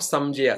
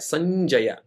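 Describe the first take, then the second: First: The nasal before j is an m sound. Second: The nasal before j is an n sound. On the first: The speaker calls it wrong. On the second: The speaker calls it right.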